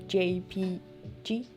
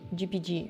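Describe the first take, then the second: First: The first letter is said as 'jay'. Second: The first letter is said as 'gee'. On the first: The speaker calls it right. "It's J P G" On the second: The speaker calls it wrong. "I'm always like G P G"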